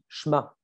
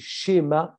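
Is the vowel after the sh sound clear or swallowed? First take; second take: swallowed; clear. First: The vowel after the sh sound is swallowed. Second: The vowel after the sh sound is clearly pronounced. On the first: The speaker calls it wrong. "On ne prononce pas bien le e" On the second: The speaker calls it right. "c'est schéma Israël"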